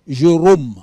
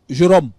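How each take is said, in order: First: The O in Jérôme is long and closed. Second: The O in Jérôme is short and open. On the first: The speaker calls it right. "il devient un grand O. Jérôme" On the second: The speaker calls it wrong. "vous avez des gens qui disent Jérôme ... c'est pas juste"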